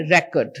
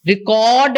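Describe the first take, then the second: First: REcord, stressed first syllable; record as noun. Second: ReCORD, long stressed second syllable; record as verb. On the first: Trainer contrasting noun and verb, REcord stressed early. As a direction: hit REC in record, short ending. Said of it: "if it is a noun". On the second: Trainer contrasting verb and noun, reCORD stressed late. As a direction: draw out CORD in record. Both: Shown as a demonstration.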